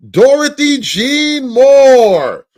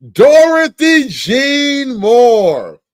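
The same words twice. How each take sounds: First: Slow, loud and high, dragging every syllable; drawn-out surprised read. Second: Even slower, loud and high, savouring the name; slower mock disbelief. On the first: Acted. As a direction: stretch the name out in mock shock. Dramatically reading an unexpected name. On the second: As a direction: drag it out like you can't believe it.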